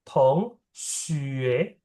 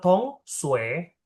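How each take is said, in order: First: The second syllable has an 'ee' with rounded lips. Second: The second syllable has a plain 'oo' vowel. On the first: The speaker calls it right. "mulutnya u tapi suaranya i" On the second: The speaker calls it wrong. "kamu suaranya U, kamu suaranya Su. Harusnya suaranya I"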